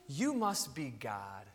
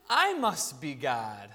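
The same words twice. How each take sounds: First: Low, slow, hushed conclusion; awestruck dog. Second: Low, slow, smug conclusion; self-important cat. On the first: Dog deciding its owner is divine, awestruck. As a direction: drop soft and slow in reverent realisation. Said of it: "so a dog, um, goes". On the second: Cat concluding from attention that it is divine, smug. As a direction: drop low and savour your own grandeur. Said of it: "The cat goes". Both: Acted.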